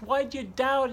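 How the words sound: It is said in a scolding, reprimanding tone. The listener is being scolded for lacking faith. The speaker calls it wrong. "we read that as if that's a reprimand from Jesus"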